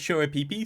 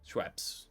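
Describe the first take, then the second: First: The name is stretched into several separate syllables. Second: The name is said as one short syllable. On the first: This is a joke version meant to annoy people. "Start calling it Shura Peepees" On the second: This is the usual way people say it. "you used to calling it Schweppes"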